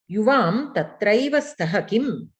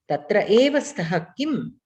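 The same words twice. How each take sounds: First: Tatraiva said as one joined word, slow and clear; sandhi joined form. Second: Tatra eva said as two separate words, eva set apart; words split apart. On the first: Teacher reading the sandhi form to the students, slowly. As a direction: blend tatra and eva into tatraiva. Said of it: "will become tatraiva in sandhi". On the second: Teacher splitting the sandhi for the students, stressing eva. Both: Shown as a demonstration.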